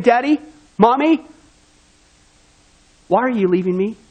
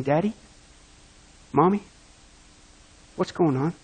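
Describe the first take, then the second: First: A hint of an abandoned child crying out; pleading child. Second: Soft, low, lightly voiced frightened child; hushed, understated child's question; scared child. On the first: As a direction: call after them as they walk away. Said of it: "your son is still saying". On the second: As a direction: ask quietly like a confused little boy. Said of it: "your son on the table saying".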